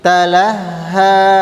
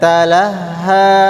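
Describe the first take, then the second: Both takes have the same delivery.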